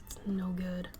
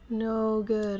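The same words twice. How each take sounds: First: Breathy unvoiced whisper. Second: Said in the usual way. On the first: Real, not acted. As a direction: say it under the breath. Repeats phrase whisper then voiced.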